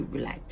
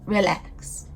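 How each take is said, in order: First: "relax." said much lower and softer, sinking into calm; drawn-out relax. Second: Sassy relax. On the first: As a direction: sink down into a low, soft relax. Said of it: "Re-, re-, re". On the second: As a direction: snap out "relax." as a sharp, falling put-down. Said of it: "Like, bitch". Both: Retold or imitated.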